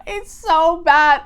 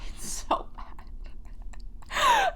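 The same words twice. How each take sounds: First: Loud, high words bursting out of laughter; shocked laughter. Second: Very slow, voiceless squeak through laughter; wheezing laughter. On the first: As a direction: blurt it out loudly, cracking up from shock. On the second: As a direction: barely get the words out for laughing. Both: Real, not acted. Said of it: "I have to laugh because of the shock".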